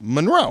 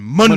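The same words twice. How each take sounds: First: The stress is on the second syllable. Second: The stress is on the first syllable. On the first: The speaker calls it right. "Emphasis on the second syllable" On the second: The speaker calls it wrong. "Absolutely no one pronounced her name like this"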